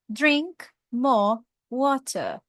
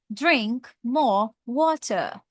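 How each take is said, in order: First: It is said in a British accent. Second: The same.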